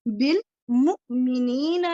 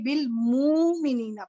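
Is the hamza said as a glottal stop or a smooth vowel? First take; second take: glottal stop; smooth vowel. First: The hamza is said with a sharp glottal stop. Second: The hamza is dropped into a smooth long vowel. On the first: "नहीं पढ़ा" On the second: "बल्कि बिल मुमिनीना पढ़ा"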